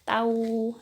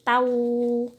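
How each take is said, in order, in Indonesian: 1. Bunyi n menyatu menjadi bunyi w sengau. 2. Bunyi n menyatu menjadi bunyi w sengau.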